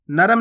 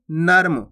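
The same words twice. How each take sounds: First: नरम split as "na-ram"; full vowel after the r in नरम; wrong full "ra". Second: नर्म as one syllable, "narm"; half "r" in नर्म. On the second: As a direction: join r straight to m in नर्म. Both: Shown as a demonstration. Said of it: "नरम नहीं".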